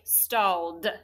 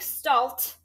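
First: The word ends with a d sound. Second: The word ends with a t sound. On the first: The speaker calls it right. "It sounds like stalled with the D" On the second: The speaker calls it wrong. "It doesn't sound like stalt"

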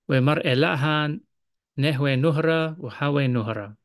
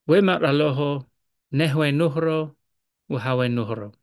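First: It is read in the Eastern Syriac accent. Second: It is read in the Western Syriac accent.

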